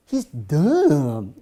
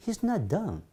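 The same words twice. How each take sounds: First: He's dumb with dumb punched hard and louder; stressed dumb. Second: Softer, higher no, he's not dumb; mock correction. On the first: Retold or imitated. Retold American insists, dumb said hard and loud. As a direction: lean on dumb like you mean it. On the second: Retold American corrects a friend, a touch softer. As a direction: gently set them straight. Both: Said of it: "이러더라고요".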